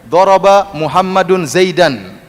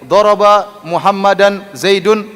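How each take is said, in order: First: Muhammad ends in -un, Zaid ends in -an. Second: Muhammad ends in -an, Zaid ends in -un. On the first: The first-named man is the one hitting. "Muhammad sekarang dhammah" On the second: The first-named man is the one being hit. "kalau saya baca terbalik"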